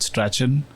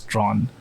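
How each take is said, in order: First: The name is said with two syllables. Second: The name is said with one syllable. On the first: This is the common but mistaken pronunciation. The speaker calls it wrong. "I used to call it Strachan" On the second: This is the pronunciation the speaker was taught. The speaker calls it right. "I was told way back when that it's Strawn"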